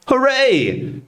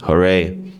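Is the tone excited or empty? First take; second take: excited; empty. First: It is said with excited, happy energy. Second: It is said flatly, with no enthusiasm.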